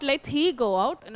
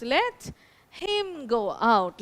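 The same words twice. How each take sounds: First: Said in the usual way. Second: Slow, deliberate correction with "him" stressed. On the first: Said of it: "the correct answer is not". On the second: Shown as a demonstration. Teacher gives students the correct answer, slow stress on "him". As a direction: draw the words out slowly, leaning on "him". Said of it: "No, the correct answer is".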